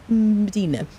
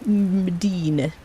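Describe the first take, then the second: First: Said in the usual way. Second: Slow stretched name. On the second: Shown as a demonstration. Greeting viewer Medina, slow stretched sing-song. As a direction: draw the name out slowly in a strange voice.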